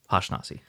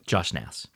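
First: The name begins with an H sound. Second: The name begins with a J sound. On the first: The speaker calls it wrong. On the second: The speaker calls it right.

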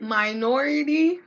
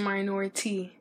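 First: The T is said softly, without extra emphasis. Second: The T is said crisply, with extra emphasis.

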